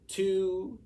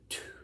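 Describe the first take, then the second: First: The word is spoken in a normal voice. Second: The word is whispered without voice.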